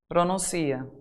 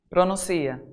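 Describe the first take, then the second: Both takes have the same delivery.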